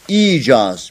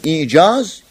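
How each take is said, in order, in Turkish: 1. İlk i uzatılarak uzun söylenir. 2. Kısa ilk i'den sonra boğaz durması gelir. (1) "Birinde de uzatma var. Y ile uzatıyoruz" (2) "birisi ayınla yazılıyor"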